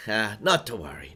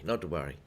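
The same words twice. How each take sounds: First: Said in the usual way. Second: Repeated softer and lower, to himself. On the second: Shown as a demonstration. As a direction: mutter it again under your breath, easing off.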